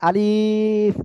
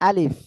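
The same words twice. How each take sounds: First: The vowel is drawn out and lengthened. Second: The vowel is kept short, not drawn out. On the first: The speaker calls it wrong. "অনেকে উচ্চারণ করে আলিফ, এভাবে উচ্চারণ হবে না" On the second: The speaker calls it right. "এ অক্ষরে কোনো টান হবে না"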